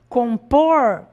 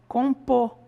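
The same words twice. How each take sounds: First: The final R is clearly pronounced. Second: The final R is dropped.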